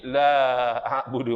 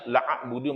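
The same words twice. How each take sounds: First: The first vowel is long, with a drawn-out a. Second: The first vowel is short, without a long a. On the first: I do not worship what you worship. "tertambah alif" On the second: I would surely worship what you worship. "Kalau tak ada alif"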